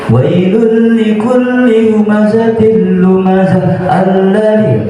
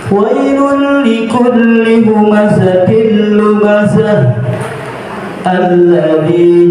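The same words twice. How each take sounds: First: It runs on without a pause after lumazah. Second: There is a pause after lumazah. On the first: The speaker calls it wrong. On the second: The speaker calls it right. "Harus berhenti dengan nafas"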